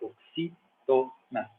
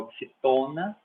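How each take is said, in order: First: The stress is on the third-to-last syllable. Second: The stress is not on the third-to-last syllable. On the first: The speaker calls it right. "É oxítona. ... é uma proparoxítona" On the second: The speaker calls it wrong. "não é oxitona"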